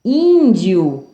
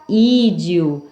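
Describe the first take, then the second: First: Índio with a held nasal first vowel. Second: Slow ídio with a purely oral first vowel; nasal removed. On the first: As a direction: say Índio, the Ín through the nose. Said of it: "Com o som nasal". (Índio com som nasal) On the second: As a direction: say ídio with nothing through the nose. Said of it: "Se eu retirar o N do índio". (ídio sem som nasal) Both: Shown as a demonstration.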